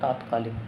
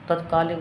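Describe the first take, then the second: First: The first vowel is a long 'aa'. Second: The first vowel is a short 'a'. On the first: The speaker calls it wrong. "न कि तात्कालिक" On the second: The speaker calls it right. "तत्कालिक होता"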